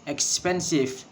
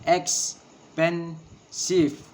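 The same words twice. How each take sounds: First: Said in the usual way. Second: Expensive drawn out very slowly as ex-pen-sive, middle beat stressed; very slow, each syllable apart. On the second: Shown as a demonstration. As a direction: spell expensive out slowly in beats. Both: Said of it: "and three syllable".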